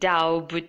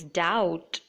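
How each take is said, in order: First: The b sound is pronounced. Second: The b sound is silent. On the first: The speaker calls it wrong. "it is not doubt" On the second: The speaker calls it right. "it is doubt"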